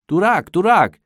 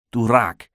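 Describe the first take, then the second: First: High, loud call across a pond. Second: Understated amused delivery; laughing. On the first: Arkadi calls his duck on the dark pond, calling out. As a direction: call the duck by name, pitched well up. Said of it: "rief Arkadi". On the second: Arkadi running free after fooling the policemen, lightly laughing. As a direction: say it with a slight touch of triumph. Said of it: "lachte er". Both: A narrator's reading.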